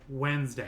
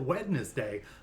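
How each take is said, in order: First: The word is said the usual, reduced way. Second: Every letter of the word is sounded out. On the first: The speaker calls it right. "just saying it Wednesday like like everybody else" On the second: The speaker calls it wrong. "pronounce every s- letter of the word"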